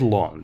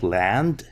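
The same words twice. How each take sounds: First: It is pronounced the way a French name is. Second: It is pronounced as the English word land. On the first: The speaker calls it right. "it's French. Ned Land, I think it's pronounced this way" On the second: The speaker calls it wrong. "this is not land, this is not English"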